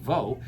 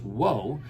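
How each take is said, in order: First: The syllable starts with a V sound. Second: The syllable starts with a W sound. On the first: This is the usual present-day pronunciation. "instead of being vo" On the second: This is the original pronunciation. "it would have originally been pronounced as wo"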